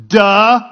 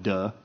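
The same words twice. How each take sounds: First: Loud mocking duh; crowd's scoffing duh. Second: Low, soft deadpan duh; understated duh. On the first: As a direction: blurt it out as painfully obvious. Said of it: "everybody in the crowd is, like, going". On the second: Retold or imitated. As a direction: drop it quietly as an obvious aside. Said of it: "one of them might have went".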